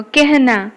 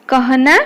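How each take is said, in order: First: कहना said ke-h-na; कहना as spoken Hindi kehna; a becomes e. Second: कहना with an open a before h; कहना said letter by letter, vowel unchanged; as spelt. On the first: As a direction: give कहना an e vowel before h. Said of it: "ए करिकी कहिवो". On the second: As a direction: read कहना as ka-ha-na. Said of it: "उच्चारण कौन करिवो". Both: Shown as a demonstration.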